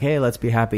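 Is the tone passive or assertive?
passive. It is said in a passive, mild way.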